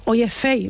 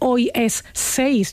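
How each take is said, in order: First: It is said Andalusian style, final consonant dropped. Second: It is said with the final consonant clearly pronounced.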